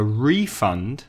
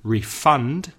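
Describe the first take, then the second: First: "refund" stressed on the first syllable, RE-fund. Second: "Refund" stressed on the second syllable, re-FUND. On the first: Teacher showing learners the noun, "refund" stressed on its first syllable. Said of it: "the stress is on the first syllable". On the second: Teacher showing learners the verb, "Refund" stressed on its second syllable. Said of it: "stress on the second syllable". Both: Shown as a demonstration.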